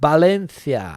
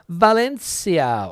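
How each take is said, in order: First: The name is pronounced the Spanish way. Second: The name is pronounced the English way.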